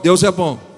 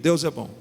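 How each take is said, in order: First: It is said loudly and forcefully. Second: It is said at normal volume.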